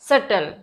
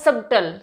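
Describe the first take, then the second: First: The b sound is silent in the middle. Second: The b sound is pronounced in the middle. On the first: The speaker calls it right. "बी silent हो जाएगा, तो ये हो जाएगा सटल" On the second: The speaker calls it wrong. "ये तो मैंने बहुत लोगों को कहते हुए देखा, सबटल नहीं होता बी"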